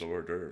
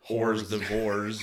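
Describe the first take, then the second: First: It is said the French way, dropping silent letters. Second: It is said sounding out every written letter. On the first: "I think it's hors d'oeuvres" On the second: "because if you look at it, it's like hors d'oeuvres"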